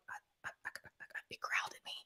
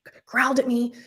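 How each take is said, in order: First: Stammering, barely audible whisper; faint acted stutter, all breath; scared whisper. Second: Voiced, slightly raised repeat; mildly urgent retold insistence; insistent repeat. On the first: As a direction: act too shocked to get it out. Clammy, stammering to husband. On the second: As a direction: act out repeating it audibly, still rattled. Repeats it to puzzled husband.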